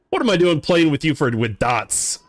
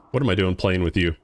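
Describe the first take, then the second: First: Higher, animated outburst that falls away; mock exasperation. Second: Said in the usual way. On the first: Gamer asks himself why he bothers with dots, mock-exasperated. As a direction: start high and punchy, then settle down.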